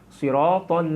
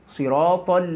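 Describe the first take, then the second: Both takes have the same delivery.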